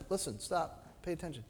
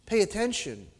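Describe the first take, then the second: First: Very hushed urging; quiet, intimate call for attention; soft small voice. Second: Said in the usual way. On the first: Acted. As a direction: drop nearly to a whisper to make them listen. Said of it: "in a soft, small voice".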